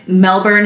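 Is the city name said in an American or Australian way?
American. The name is said in a plain American way.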